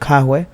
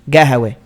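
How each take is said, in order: First: It is said with a k sound at the start. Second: It is said with a g sound at the start.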